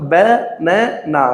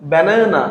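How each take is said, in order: First: "banana" slowly as ba, na, na; split into syllables. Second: Said in the usual way. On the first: Shown as a demonstration. Teacher counting for learners, "banana" slowly split ba, na, na. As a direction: separate each syllable of "banana". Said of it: "তিনটি রয়েছে". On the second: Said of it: "how many syllables".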